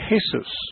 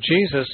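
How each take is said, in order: First: The name begins with an H sound. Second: The name begins with a J sound. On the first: "In Spanish, they say Jesus. ... the J is pronounced like an H" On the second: "Jesus is the English pronunciation"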